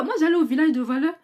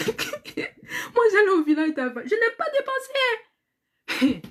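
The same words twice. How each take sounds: First: Said in the usual way. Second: Talking through high laughter; half laughing, half crying at herself; words bubbling with real laughter. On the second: Real, not acted. Laughing at her own thriftiness.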